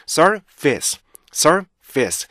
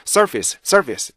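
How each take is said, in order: First: Surface as sur, pause, vice; 두 덩어리 발음. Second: Surface rushed into two quick beats; 잘못된 발음. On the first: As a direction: part surface into two drawn-out chunks. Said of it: "크게 두 가지로 나누면요". (두 박으로 나눈 surface) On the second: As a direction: run surface together, losing the small beats. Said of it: "이렇게 하시면 안 되고요". (리듬 없이 붙인 surface) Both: Shown as a demonstration.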